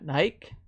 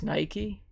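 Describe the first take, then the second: First: The name is said a non-American way. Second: The name is said the American way. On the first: The speaker calls it wrong. "not Nike" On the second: The speaker calls it right. "if you're in America, you pronounce it Nike"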